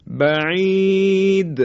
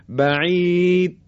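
First: "بعید" high, long ī, د clearly bounced; qalqalah on د. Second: "بعید" with final د swallowed, no bounce; missing qalqalah. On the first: Teacher corrects the mistake in "بعید", bouncing qalqalah. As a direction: stretch "بعید" and shake the final د free. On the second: Teacher shows the mistake in "بعید", qalqalah left out. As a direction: stop "بعید" dead so the د is barely audible. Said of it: "حرف دال دیگه شنیده نمیشه". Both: Shown as a demonstration.

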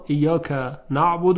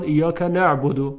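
First: Said in the usual way. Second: نعبد said as "ne'budu"; dialect vowel. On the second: Shown as a demonstration. Teacher shows another tribe's reading, نعبد as "ne'budu". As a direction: say نعبد with an e in the first syllable. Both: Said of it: "هر کسی با لهجهٔ خودش".

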